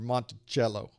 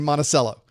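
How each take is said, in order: First: It is pronounced the way Virginians say it. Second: It is pronounced the way Floridians say it. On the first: The speaker calls it right. "You coming down here talking like that with your Monticello" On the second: The speaker calls it wrong. "In Florida, we say Monticello"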